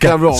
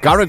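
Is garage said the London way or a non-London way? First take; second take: London; non-London. First: Garage is said the London way. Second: Garage is said in a non-London way. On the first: "if you're from London, it's garage" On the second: "I call it garage because I'm from the tune"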